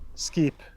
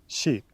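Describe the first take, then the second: First: The word begins with an sk sound. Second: The word begins with an sh sound. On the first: This is the older Norse pronunciation. "not skip" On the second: This is the later palatalized pronunciation. "but sheep"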